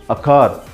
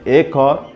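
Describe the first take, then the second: First: The article is a short, weak uh sound. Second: The article sounds like the letter name A. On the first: The speaker calls it right. "as an article, we have to pronounce it a" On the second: The speaker calls it wrong. "Don't say a car"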